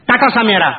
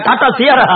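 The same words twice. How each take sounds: First: Tata சாமியாரா, with சாமியாரா said like the word for a holy man; garbled car name. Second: Tata சியாரா with சியாரா said cleanly as see-yah-rah; correct car name. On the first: Swami naming the car, garbling it as சாமியாரா. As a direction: mangle Sierra into சாமியாரா, said with confidence. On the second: Shopkeeper correcting the swami's car name, said plainly. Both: Acted. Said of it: "அது டாடா சாமியாரா இல்லையா?".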